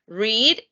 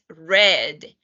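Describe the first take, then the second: First: It is said as the present-tense form. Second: It is said as the past-tense form. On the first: The action happens now or habitually. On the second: The action happened in the past.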